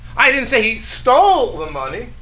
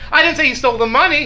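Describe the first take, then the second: First: The word "stole" carries the main stress. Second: The word "money" carries the main stress. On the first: He took it some other way than stealing. "He borrowed it long term" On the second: He stole something other than the money.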